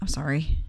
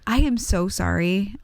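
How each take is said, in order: First: The apology sounds curt and forced. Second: The apology sounds warm and sincere.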